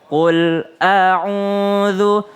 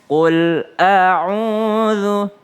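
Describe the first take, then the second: No difference in how they are said.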